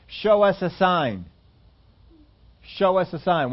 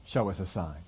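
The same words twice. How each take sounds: First: Slow, pushy demand; mock challenge to Jesus; demanding Pharisees. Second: Much lower and softer, brushed aside; a muttered mocking echo of the Pharisees; dismissive echo. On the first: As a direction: press him for proof, drawing it out. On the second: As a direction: toss their demand away under your breath. Pharisees' demand quoted once more.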